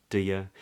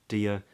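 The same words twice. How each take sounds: The two takes are said the same way.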